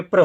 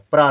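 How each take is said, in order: First: प्र with a brief, short vowel after the r; quick प्र, not held. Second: प्रा with a long open aa; प्रा held on aa, as the contrasting sound; long aa vowel. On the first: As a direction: say प्र short, without a long aa. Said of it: "प्रा नहीं है". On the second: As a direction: lengthen the vowel at the end of प्रा. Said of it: "प्रा होता तो बड़े आ की". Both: Shown as a demonstration.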